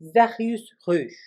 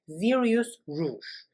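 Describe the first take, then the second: First: It is said with a French accent. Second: It is said with an American accent.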